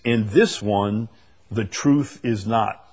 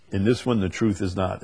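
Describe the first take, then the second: First: "In this one, the truth is not" read slowly, each word weighted; emphatic reading. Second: Said in the usual way. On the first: Shown as a demonstration. Preacher dwelling on a literal Greek rendering, slow and emphatic. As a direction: lean on "this" and "truth", spacing the words out. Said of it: "This is very emphatic". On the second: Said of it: "I like that".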